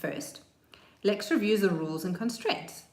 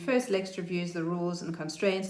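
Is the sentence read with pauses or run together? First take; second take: paused; run together. First: The words are separated by pauses at commas. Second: The words run together without pauses. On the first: The speaker calls it right. "if I read it again" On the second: The speaker calls it wrong. "If I didn't read the sentence with any punctuation"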